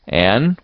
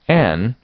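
First: Name called with mild severity; sterner call. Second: Fairly gentle call of the name. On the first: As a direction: call the child a little more sternly. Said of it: "with greater severity". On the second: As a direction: call the child without harshness. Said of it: "not ungently". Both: A narrator's reading.

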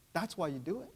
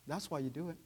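The two takes are said the same way.

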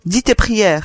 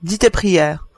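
First: Firm, threatening order; terrible voice. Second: Said in the usual way. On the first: A narrator's reading. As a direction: repeat the command with menace. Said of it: "répéta Matteo d'une voix terrible". (voix terrible, ordre sans appel)

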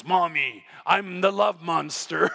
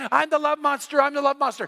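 First: Low, slow mock monster voice; playful monster. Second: Retold child's scream. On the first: Muddy girl announcing herself to mom, mock-monstrous. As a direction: play a little kid being a monster. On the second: Girl running at dad, mock screaming. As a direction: imitate an excited kid shrieking, toned down. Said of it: "she's screaming".

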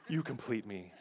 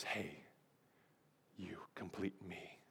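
First: Said in the usual way. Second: Barely-there whisper with a long pause; hushed whisper. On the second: Acted. Preacher playing Jerry Maguire to his love interest, hushed whisper. Acting out tearful movie love scene.

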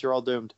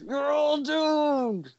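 First: Said in the usual way. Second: Slow doomsayer drawl; Crazy Ralph voice. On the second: Shown as a demonstration. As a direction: warn of doom slowly. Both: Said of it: "I can't do the voice".

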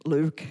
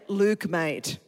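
First: "Luke" in an imitated American accent; low-pitched mock-American "Luke". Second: "Luke, mate" in an Australian accent. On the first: Preacher teasing the congregation's pronunciation, mock American accent. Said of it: "Sounds really American". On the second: Shown as a demonstration. Preacher teaching an American church, Australian accent. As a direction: model casual Australian speech. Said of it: "I'm gonna teach you Australian".

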